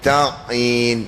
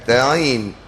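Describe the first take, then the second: First: The ain sound is fully and clearly articulated. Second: The ain sound is merged and sounds doubled. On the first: The speaker calls it right. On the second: The speaker calls it wrong.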